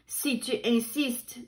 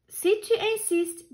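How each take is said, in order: First: Said in the usual way. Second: Much higher, gently firm; high sweet ladybug voice. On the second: A narrator's reading. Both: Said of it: "dit la coccinelle gentille".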